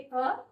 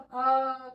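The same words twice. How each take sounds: First: The vowel is said lightly and very briefly. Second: The vowel is stretched out for a long time. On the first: The speaker calls it right. "इसको हमें बहुत ही हल्के तरीके से बोलना है" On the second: The speaker calls it wrong. "ऐसा नहीं कि हम उसको बहुत अ करके खींच रहे हैं"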